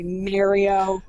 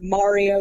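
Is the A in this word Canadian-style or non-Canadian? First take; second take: Canadian; non-Canadian. First: The A is said the Canadian way. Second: The A is said the usual non-Canadian way. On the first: "you say Mario. You've got a weird A" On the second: "Instead of Mario"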